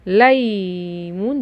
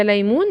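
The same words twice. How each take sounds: First: Put-on ليمون sounded out very slowly for children; drawn-out demonstration. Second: Said in the usual way. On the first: Shown as a demonstration. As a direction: stretch the first syllable of ليمون slowly. (نطق ليمون ببطء مع مد) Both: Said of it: "ادي الصورة اللي فيها لا".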